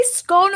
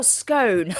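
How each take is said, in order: First: SCONE with a short o, rhyming with gone; short-vowel scone. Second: SCONE with a long o, rhyming with bone; long-vowel scone. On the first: Co-host asks how it is said, "scone" with short o. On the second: Co-host offers the other option, "scone" with long o. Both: Shown as a demonstration. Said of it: "Do you say scone or scone".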